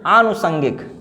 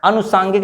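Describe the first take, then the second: First: आनुषंगिक with long aa and ष: aa-nu-shan-gik; आनुषंगिक, not अनुसांगिक; corrected word. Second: Said in the usual way. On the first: Shown as a demonstration. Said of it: "आनु लगेगा". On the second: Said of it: "अनुसांगिक नहीं".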